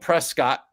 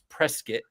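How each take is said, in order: First: The ending sounds like 'kit' in 'press kit'. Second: The ending sounds like the end of 'biscuit'. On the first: The speaker calls it wrong. "Don't come up here and be calling it Prescott" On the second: The speaker calls it right. "like they say like biscuit"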